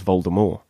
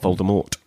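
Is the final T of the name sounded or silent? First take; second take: silent; sounded. First: The final T is silent. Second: The final T is sounded. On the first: The speaker calls it right. "she wanted everyone to be reading it as Voldemort" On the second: The speaker calls it wrong. "Not Voldemort"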